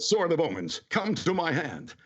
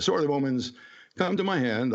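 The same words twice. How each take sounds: First: It is said dramatically, like a hero. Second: It is said casually, like normal conversation.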